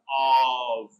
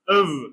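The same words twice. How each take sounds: First: The vowel is full and unreduced. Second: The vowel is short and reduced. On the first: "Strong form" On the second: "Weak form"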